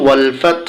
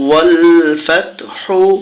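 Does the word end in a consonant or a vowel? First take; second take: consonant; vowel. First: The word ends on a bare consonant. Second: The word ends with a final u vowel. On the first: The reader stops at this point. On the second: The reading continues without a stop.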